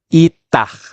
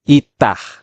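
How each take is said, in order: The two takes are said the same way.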